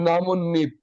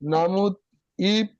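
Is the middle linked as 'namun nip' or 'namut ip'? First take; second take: namun nip; namut ip. First: An n sound links the parts as nip. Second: A t sound comes before a separate ip. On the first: The speaker calls it right. "হয়ে যাবে নামুন নিপ" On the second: The speaker calls it wrong. "নামুত ইপ বলা যাবে না"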